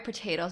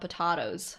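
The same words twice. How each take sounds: First: It is said the ordinary way. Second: It is said like the British tomatoes.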